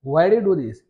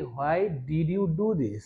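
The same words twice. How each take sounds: First: Why do you do this? linked together, louder; natural connected speech. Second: Why did you do this? said very slowly, every word apart; slow full form. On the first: Teacher models the natural linked version. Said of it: "কিন্তু আমরা বলবো এটাকে". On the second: Teacher shows the slow full form first. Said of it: "আমরা এভাবে বলতে পারি". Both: Shown as a demonstration.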